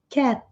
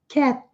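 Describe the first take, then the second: The two takes are said the same way.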